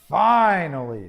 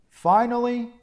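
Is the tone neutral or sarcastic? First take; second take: sarcastic; neutral. First: It is said in a sarcastic, impatient way. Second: It is said in a plain, neutral way.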